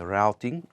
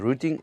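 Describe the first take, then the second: First: Routing is said with the American pronunciation. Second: Routing is said with a non-American pronunciation.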